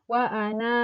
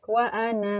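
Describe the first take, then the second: First: The final vowel of ana is long. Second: The final vowel of ana is short. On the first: The reading stops at this word. "jika dibacanya sukun atau berhenti di kata ana" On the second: The reading continues without stopping. "maka dia dibaca pendek"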